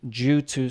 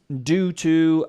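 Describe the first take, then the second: First: The word begins with a J sound. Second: The word begins with a plain D sound. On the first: "we generally say like a J" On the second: "sometimes in the United States, it's pronounced due to"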